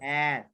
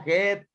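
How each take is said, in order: First: The vowel sounds like the one in 'cat'. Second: The vowel sounds like the one in 'head'. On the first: The speaker calls it right. "It's a short a. ... Like in cat" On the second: The speaker calls it wrong. "No, head. Head. No. ... Similar to head. It's similar, similar kind of, but no"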